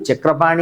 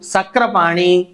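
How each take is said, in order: First: The word begins with a ch sound. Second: The word begins with an s sound. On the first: The speaker calls it right. "వీడు చక్రపాణి అనే ఉండాలి" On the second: The speaker calls it wrong. "వీడు సక్రపాణి అని అనడానికి రాదు"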